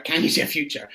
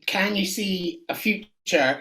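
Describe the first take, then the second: First: Said in the usual way. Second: Slow, portentous crystal-ball question; mock fortune-teller. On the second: Shown as a demonstration. To the guest, playing a mystic: slow portentous question. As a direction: draw it out like a seer. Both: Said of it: "get your crystal ball out".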